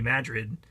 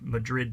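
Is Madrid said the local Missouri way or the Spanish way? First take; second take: local Missouri; Spanish. First: It is said the local Missouri way. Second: It is said the way the Spanish capital is. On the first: It names the town in Missouri. "if you find yourself in New Madrid, you should pronounce it that way" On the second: It names the city in Spain. "Madrid, Spain is pronounced that way"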